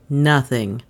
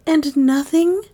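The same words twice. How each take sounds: First: Low, falling Nothing with finality. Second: Higher, rising breathed question. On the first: Bailey answering Dale, low and final. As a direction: close the matter. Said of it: "an accent of finality". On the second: Dale asking Bailey, high and breathless. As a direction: hang on his answer. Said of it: "breathed Dale". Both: A narrator's reading.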